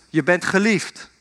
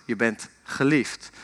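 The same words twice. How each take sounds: First: Mild call, no real shout; father calling out. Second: Soft, low, slow echo; returning echo. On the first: Father calls into the mountains for his son, mild calling out. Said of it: "En zijn vader roept". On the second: Mountains answer the father's call, soft returning echo. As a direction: let it come back softer, lower and drawn out. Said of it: "En jij hoort terug". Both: Retold or imitated.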